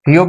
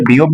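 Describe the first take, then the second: First: "فیوپ" with an aspirated ph at the start; "فیوپ", first sound p-h, not b; aspirated P reading. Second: "بیوپ" with a voiced b at the start; "بیوپ", first sound b, not p; B reading. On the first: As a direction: say "فیوپ" opening on a breath-puffed p. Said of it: "فیوپ بھی کہتے ہیں". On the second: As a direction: say "بیوپ" opening on b. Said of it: "اسے بیوپ بھی کہتے ہیں". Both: Shown as a demonstration.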